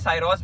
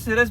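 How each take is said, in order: First: The name begins with a 'sigh' sound. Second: The name begins with a short 'si' sound. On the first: "साइरोस भी बोल सकते हैं" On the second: "आप इसे सिरस भी बोल सकते हैं"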